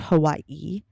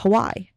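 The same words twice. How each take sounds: First: It is said the mainland way, exaggerated. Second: It is said the native Hawaiian way. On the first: It is how most other people say it. "I'm like obviously putting extra em- emphasis on that" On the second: It follows a Hawaiian-accented parent's pronunciation. "which is how he pronounces it"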